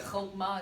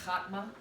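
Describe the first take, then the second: First: Chokmah with a long O, HOHK-mah; correct pronunciation. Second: Chakmah with an open "ah", HAHK-mah; wrong pronunciation. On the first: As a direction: round the first vowel of chokmah to "oh". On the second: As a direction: open the first vowel of chakmah to "ah". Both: Shown as a demonstration. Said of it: "is not pronounced chakmah".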